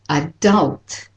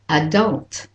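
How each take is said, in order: First: The stress is on the second syllable. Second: The stress is on the second syllable.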